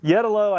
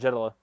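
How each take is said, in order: First: The name is said the original way. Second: The name is said the American way. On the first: This is how the name is pronounced at its origin. "I think, is actually the correct way they pronounce it" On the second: This is how people in the United States say the name. "everyone in the United States calls it Jetalo"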